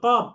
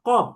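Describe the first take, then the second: Both takes have the same delivery.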